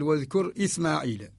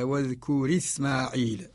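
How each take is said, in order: First: A glottal stop begins the second word. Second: The vowel links to the preceding consonant, no glottal stop. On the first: "الأصل واذكر إسماعيل كما هو رواية الإمام قالون" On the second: "نقل حركة الهمزة للساكن قبلها فسقطت الهمزة"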